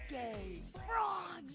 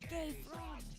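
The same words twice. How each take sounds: First: It is said very slowly. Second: It is said at normal speed.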